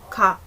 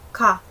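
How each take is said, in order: First: The first consonant falls between G and K. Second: The first consonant falls between G and K.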